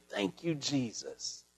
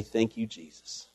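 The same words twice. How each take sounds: First: Much softer, slow, hushed gratitude; awed thanks. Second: Softer, lower, humble gratitude; humble thanks. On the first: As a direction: breathe it out slowly, overwhelmed. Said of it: "you can't do nothing but sit there and say". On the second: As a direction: say it quietly, head bowed. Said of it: "go before the Lord humbly". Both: Shown as a demonstration.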